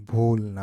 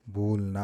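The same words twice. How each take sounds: First: ഭൂൽന said again much louder, falling at the end; teacher repeats ഭൂൽന loudly for the class. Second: Said in the usual way. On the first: Shown as a demonstration. (ഭൂൽന ഉറക്കെ ആവർത്തിക്കുന്നു)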